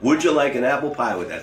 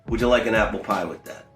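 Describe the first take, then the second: First: The offer is said in an exaggerated, forced way. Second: The offer is said in a relaxed, natural way. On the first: The speaker calls it wrong. "They didn't like" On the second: The speaker calls it right. "very naturally"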